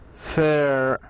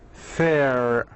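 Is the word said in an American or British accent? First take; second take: American; American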